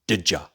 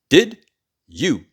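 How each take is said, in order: First: The words are shortened and run together. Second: Both words are said fully and separately.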